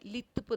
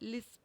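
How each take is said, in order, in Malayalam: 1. മധ്യ വ്യഞ്ജനം th ശബ്ദമാണ്. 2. മധ്യ വ്യഞ്ജനം വ്യക്തമായ s ശബ്ദമാണ്. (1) "ലിത്പ് എന്നായിരിക്കും പറയുക" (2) "ലിസ്പ് എന്ന് പറയുന്നതിന് പകരം"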